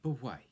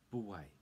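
First: "But why" called out loud and high, falling on "But"; loud reply. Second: Said in the usual way. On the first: Shown as a demonstration. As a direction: belt out "But why" like an eager answer. Teacher voicing pub reply.

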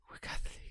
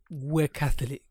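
First: Near-whispered, weary brush-off; deflated refusal. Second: Firm, full-voiced brush-off; curt refusal. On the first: Acted. Man to second religious caller, hushed and deflated. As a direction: barely voice it, very softly. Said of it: "Shuts the door slowly this time". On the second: Man to Jehovah's Witness at his door, curt. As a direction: turn them away firmly. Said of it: "stands up so aggressively".

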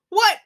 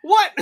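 First: Said in the usual way. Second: Much higher, louder startled what; shocked what. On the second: Retold or imitated. Player reacts to the fly swatter plan, shocked. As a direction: squeak it in disbelief. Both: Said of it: "And you're like".

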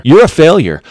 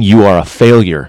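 First: "You're a failure" pitched high, with "You're" punched; emphatic repeat. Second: Said in the usual way. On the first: Real, not acted. Lecturing husbands, he hammers the verdict home. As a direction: drive the verdict home, higher.

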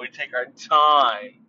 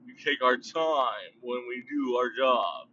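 First: Slow, drawn-out phrase; deliberate slow delivery; slow emphatic. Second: Slow, stretched delivery; slow emphatic. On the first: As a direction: stretch each word out slowly. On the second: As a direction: draw the words out slowly. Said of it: "I got that weird, funny accent". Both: Shown as a demonstration.

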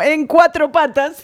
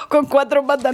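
First: "en cuatro patas" slow and deliberate, correcting the wording; corrección con énfasis. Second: Said in the usual way. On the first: Real, not acted. ("en cuatro patas" lento y recalcado, corrigiendo) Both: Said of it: "no, en cuatro patas".

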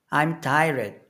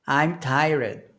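The two takes are said the same way.

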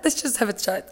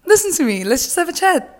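First: Same line again, softer and calmer; soft repeat. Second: Higher, pointed call to attention; mock stern call. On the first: Pretend. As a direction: drop it to a calm aside. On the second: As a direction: summon her to a serious talk.

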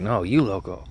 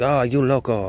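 First: Said in the usual way. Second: High mock exclaim "oh, you loco"; imitating old lady. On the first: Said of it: "I was like". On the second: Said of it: "And she's like".

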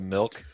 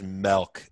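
First: Said in the usual way. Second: "milk" said as "melk", with an e; accent on milk. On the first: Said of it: "instead of milk". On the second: Retold or imitated. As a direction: say "milk" with the vowel of "melt". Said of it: "somebody has this kind of accent".

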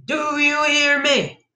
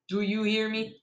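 First: Slow, high-pitched drawn-out yell; shouted demand. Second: Softly put, restrained threat; quiet warning. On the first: Child confronting the bandit, slow high shout. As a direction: stretch every word into a shout. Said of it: "I shouted again". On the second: Child warning the bandit, quiet menacing question. First, low take to bandit. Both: A narrator's reading.

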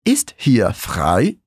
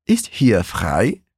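First: Ist hier frei very slow, ending on a rise; slow model phrase. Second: Ist hier frei spoken very slowly, each word apart; slow model phrase. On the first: Teacher asking Ist hier frei slowly, with a rising end. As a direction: ask it slowly as a drill. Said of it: "Como eu pergunto". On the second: Teacher modelling Ist hier frei slowly for repetition. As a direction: drill it slowly, rising at the end. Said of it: "repetir a frase todinha". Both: Shown as a demonstration.

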